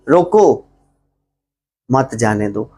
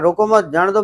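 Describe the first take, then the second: First: The pause comes right after 'रोको'. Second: The pause comes right after 'मत'.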